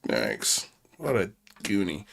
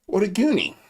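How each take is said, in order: First: Low quiet mutter of disbelief; muttered under breath. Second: Pitched-up mocking exclamation; higher mocking repeat. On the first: Host mutters about the troll caller, low and quiet. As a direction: say it low to yourself. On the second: Host mocks the troll caller again, higher and scornful. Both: Shown as a demonstration. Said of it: "repeats line differently".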